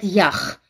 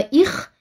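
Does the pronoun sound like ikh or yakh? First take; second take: yakh; ikh. First: The pronoun is pronounced yakh, with initial y. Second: The pronoun is pronounced ikh, without initial y. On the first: "они везде говорят «ях»" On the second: This is the standard form. "нормативного «их»"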